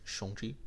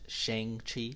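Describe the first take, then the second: First: The name is said the Asian way. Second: The name is said the American way. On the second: "Maybe the American version is Shang-Chi"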